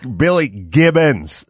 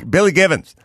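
First: The name is said slowly with a clear b. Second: The name is said fast and the b blurs. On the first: "they don't go Billy Gibbons" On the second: "They go [name]. And it just kind of blows by"

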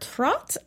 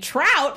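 First: The vowel sounds like the one in 'hot'. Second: The vowel sounds like the one in 'out'. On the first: The speaker calls it right. "but it's actually more Trot" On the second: The speaker calls it wrong. "We were totally mispronouncing her name"

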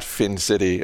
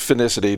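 First: The name is said with three syllables. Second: The name is said with four syllables. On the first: The speaker calls it wrong. "not FinCity, as I announced" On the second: The speaker calls it right. "It is Finicity"

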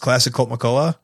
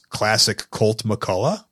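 First: The name is said very quickly, run together. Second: The name is said at a normal pace.

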